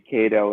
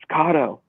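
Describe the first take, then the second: First: The first vowel is a long A sound. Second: The first vowel is a short A sound. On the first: The speaker calls it wrong. "I always say Kato" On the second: The speaker calls it right. "everyone writes in the comments, it's Kato"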